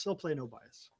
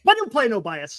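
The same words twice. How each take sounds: First: Quiet aside. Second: Said in the usual way. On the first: Real, not acted. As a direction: lower and much softer, muttered repeat.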